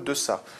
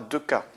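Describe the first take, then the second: First: The middle consonant is a soft s sound. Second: The middle consonant is a hard k sound. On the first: The speaker calls it right. "on veut le mot deçà" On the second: The speaker calls it wrong. "par défaut, on obtient le son dur"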